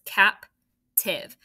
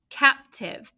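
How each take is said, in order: First: "captive" in two separated beats, cap, then tiv; split into syllables. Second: Said in the usual way. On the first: Shown as a demonstration. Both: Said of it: "it's two syllables".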